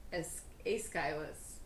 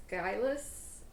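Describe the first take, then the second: First: Aeschylus said slowly as ACE-kye-lus; slow careful Aeschylus; corrected name. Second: Aeschylus said EYE-lus; first try at the name. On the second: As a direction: Aeschylus with the middle swallowed. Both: Shown as a demonstration. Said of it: "uh, A-, Aes".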